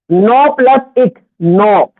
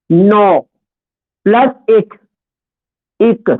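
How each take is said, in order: First: Slow, even teaching read of नौ plus एक; slow spelling out. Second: नौ, then plus, then एक, each after a clear pause; split with pauses. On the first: Teacher breaking the word down for students, slowly. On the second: Teacher dictating the split to students, word by word. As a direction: say नौ plus एक as three separate beats. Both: Shown as a demonstration. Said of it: "तो ये इसमें एक और लिखेगा".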